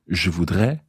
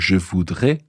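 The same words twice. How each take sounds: First: The final vowel is an open e sound. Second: The final vowel is a closed e sound. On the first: It means I would like. "as opposed to ... A I S" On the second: It means I will want. "Notice the pronunciation there, A I at the end"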